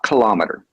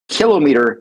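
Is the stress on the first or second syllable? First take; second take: second; first. First: The stress is on the second syllable. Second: The stress is on the first syllable. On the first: The speaker calls it wrong. "not kilometer" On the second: The speaker calls it right. "please use kilometer, ... It's like a millimeter, a centimeter"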